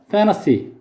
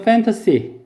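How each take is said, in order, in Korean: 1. n 뒤의 t는 생략됩니다. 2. n 뒤의 t는 분명히 발음됩니다. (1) "미국 사람이 발음하면 N 다음에 T 발음을 생략해서" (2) "영국 사람이 발음하면"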